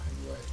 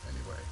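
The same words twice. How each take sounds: The two takes are said the same way.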